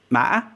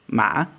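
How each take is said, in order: First: "ma" broken by a glottal catch, then rising; hiccup tone. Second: "Ma" dipping, then rising smoothly; questioning tone. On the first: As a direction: hiccup inside "ma" before it rises. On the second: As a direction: ask "Ma" without a catch. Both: Shown as a demonstration. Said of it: "the distinction in the pronunciation".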